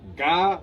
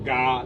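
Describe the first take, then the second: First: The word is said on a high tone. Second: The word is said on a low tone. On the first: More than one person is going. "This G A, ga, with the high tone is a plural. We are going" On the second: One person is going. "the one with the low tone is a singular word. I am going, ga lizu"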